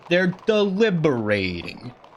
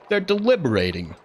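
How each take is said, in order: First: The word is said slowly and carefully. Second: The word is said at an ordinary pace.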